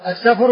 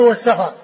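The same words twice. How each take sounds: First: السفر without vowel between f and r; sukun on the fa. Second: والسفر with open fa before r; short a after f in والسفر; fatha on the fa. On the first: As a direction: say السفر as Safr. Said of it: "بإسكان الفاء". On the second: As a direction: say والسفر as was-Safar. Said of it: "والسفر بفتحها". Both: Shown as a demonstration.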